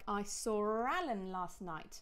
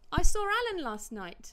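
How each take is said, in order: First: Slow, with a drawn-out R joining "saw Alan"; deliberate "saw-r-Alan" demonstration; intrusive R. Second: Louder, higher, with a quick R joining "saw Alan"; lively conversational "saw-r-Alan"; intrusive R at natural pace. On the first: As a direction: link "saw" to "Alan" with an unwritten R. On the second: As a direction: announce it brightly, slipping an R into "saw Alan". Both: Shown as a demonstration. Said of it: "use this intrusive R".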